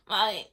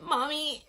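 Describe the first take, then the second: First: Said in the usual way. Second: Calling mom. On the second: Retold or imitated. Calling her mom for help.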